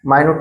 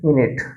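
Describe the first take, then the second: First: The first syllable is a long 'my' sound. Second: The first syllable is a short 'min' sound. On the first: It means very small or subtle. The speaker calls it wrong. "मायन्यूट पण होते, सूक्ष्म" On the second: It names sixty seconds of time. The speaker calls it right. "मिनिटासाठी घेतलेलं आहे म्हणून मिनिट येईल"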